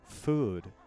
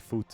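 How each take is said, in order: First: The word ends with a voiced D sound. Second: The word ends with a voiceless T sound. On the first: The speaker sounds like a native English speaker. The speaker calls it right. "That sounds so incredibly like English is my first language" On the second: The speaker sounds like a Dutch speaker. The speaker calls it wrong. "a lot of Dutch people would probably say foot instead"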